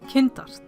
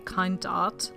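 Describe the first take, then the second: First: The name is pronounced the German-Icelandic way. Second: The name is pronounced the English way. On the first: "the German slash Icelandic pronunciation" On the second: "I don't use the English pronunciation"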